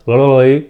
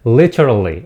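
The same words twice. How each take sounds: First: "literally" garbled, syllables smeared together; mispronounced literally. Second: "Literally" slowly, every syllable distinct; correct literally. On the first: Teacher showing students how not to say it, mispronounced. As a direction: say "literally" wrongly, blurring away the t. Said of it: "Not literally". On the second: Teacher correcting the bad example, correct pronunciation. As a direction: sound out "Literally" clearly with its t. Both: Shown as a demonstration.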